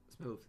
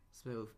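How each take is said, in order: Both takes have the same delivery.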